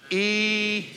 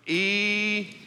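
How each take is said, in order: First: Drawn-out southern "Eternity", said higher; southern preacher drawl on "Eternity"; southern drawl again. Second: Stretched-out southern "Eternity"; slow Knoxville preacher drawl on "Eternity". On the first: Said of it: "Do it again". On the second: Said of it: "let's try it in your best southern". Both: Shown as a demonstration.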